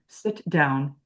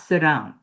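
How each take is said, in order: First: A clear British T with a break before down. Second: The words run together in an American way. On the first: The speaker calls it right. "I need that break" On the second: The speaker calls it wrong. "It's not sit down. That's what Americans say"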